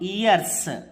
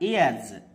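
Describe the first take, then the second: First: The word ends with a hissing s sound. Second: The word ends with a buzzing z sound. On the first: The speaker calls it wrong. "Not ఇయర్స్" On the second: The speaker calls it right. "జా అవుతుంది"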